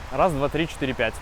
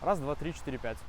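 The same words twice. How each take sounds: First: The level is at normal full volume. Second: The level is lowered by ten decibels. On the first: "звучит микрофон без обработки" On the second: "режим минус десять децибел звучит, если вообще ничего не трогать"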